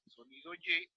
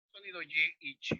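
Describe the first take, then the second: First: Sonido Y with Y pitched clearly higher; sound Y demo. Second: Said in the usual way. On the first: Shown as a demonstration. Teacher shows the class the sound Y, lifted high. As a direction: sing out the "Y" well above the rest. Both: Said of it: "en este caso yo elegí la Y".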